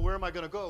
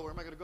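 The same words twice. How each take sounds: First: Louder, frantic retold cry; retold panic, louder; panicked cry. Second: Said in the usual way. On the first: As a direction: yell it while running for your life. Fleeing the bees in panic.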